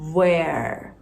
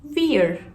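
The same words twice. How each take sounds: First: It begins with a rounded W sound. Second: It begins with a V made at the lips. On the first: "Böyle çenemi komple doldura çıkartıyorum sesi" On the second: "Ama V ile söylesem sadece dudaktan çıkar"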